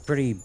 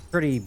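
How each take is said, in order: Both takes have the same delivery.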